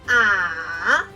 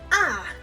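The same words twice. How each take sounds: First: The pitch is low, nearly flat and short. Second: The pitch falls quickly and is short. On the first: "Say it low, almost flat and short" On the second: "tones go down and short"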